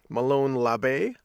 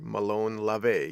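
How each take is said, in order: First: The second syllable of 'Labe' starts with a B. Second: The second syllable of 'Labe' starts with a V. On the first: "Was it a B or was it a V?" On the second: "why are you pronouncing it LaVey instead of LaBey?"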